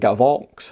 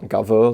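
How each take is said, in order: First: The name ends with a 'ks' sound. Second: The name ends on a vowel, no 'ks'. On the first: The speaker calls it right. "it's actually Gavox" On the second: The speaker calls it wrong. "not Gavo like I was pronouncing it"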